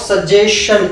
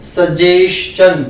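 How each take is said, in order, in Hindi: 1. अंत की ध्वनि sh जैसी बोली जाती है। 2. अंत की ध्वनि ch जैसी बोली जाती है। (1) "it is not" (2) "it is सजेशन"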